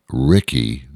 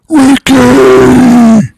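First: The name is said at normal volume. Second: The name is shouted loudly.

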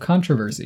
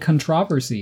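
First: It is said the American way. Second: It is said the British way. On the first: "instead of controversy" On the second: "Why do you say controversy"

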